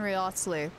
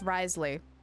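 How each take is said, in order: First: The name is said with extra sounds. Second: The name is said short, dropping sounds. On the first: The speaker calls it wrong. "I keep saying his name wrong" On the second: The speaker calls it right. "It's Risley"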